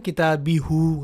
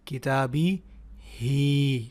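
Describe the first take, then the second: First: The last syllable ends in an 'oo' sound. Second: The last syllable ends in a drawn-out 'ee' sound. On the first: The speaker calls it wrong. "अब आप ये तो नहीं कहेंगे ना किताबी हु, गलत हो जाएगा।" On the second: The speaker calls it right. "बल्कि खड़ी ज़ेर होगी"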